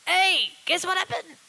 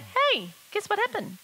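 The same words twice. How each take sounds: First: The high pitch sounds pushed and strained. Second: The high pitch sounds light and relaxed. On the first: The speaker calls it wrong. "I don't have to go" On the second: The speaker calls it right. "I don't pull it up. I just go"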